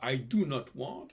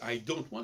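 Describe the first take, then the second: First: Do and not are said as two separate words. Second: Do and not merge into one short syllable. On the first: "il dit pas I do not want" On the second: "il ne prononce pas le O"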